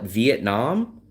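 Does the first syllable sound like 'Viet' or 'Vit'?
Viet. The first syllable is said as 'Viet'. This is how outsiders say it. "We all call it Vietnam"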